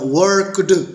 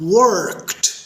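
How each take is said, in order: First: The word ends with a d sound. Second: The word ends with a t sound. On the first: The speaker calls it wrong. "ये भी गलत हो गया" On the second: The speaker calls it right. "देखा आखिरी sound क्या हुई, ट टाइप की"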